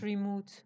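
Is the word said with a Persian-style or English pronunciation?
Persian-style. The word is said with a Persian-style pronunciation. The speaker calls it wrong.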